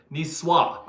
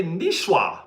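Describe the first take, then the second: First: "Ni swa" with a plain s, no h; corrected S pronunciation. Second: "Nishwa" with a hushing sh in the middle; mistaken SH pronunciation. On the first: Shown as a demonstration. Streamer repeats the corrected word, "Ni swa" with s, not sh. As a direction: say "Ni swa" as nee-SWAH. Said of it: "it's not an H". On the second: Real, not acted. Streamer reads a viewer's knights joke, "Nishwa" said with sh. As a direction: say "Nishwa" as nee-SHWA. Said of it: "I thought you were saying sh".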